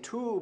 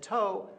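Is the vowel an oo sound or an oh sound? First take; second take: oo; oh. First: The vowel is an oo sound. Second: The vowel is an oh sound. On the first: This was the originally intended form. "I wanted him to say too" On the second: This became the adopted form. "but he said toe"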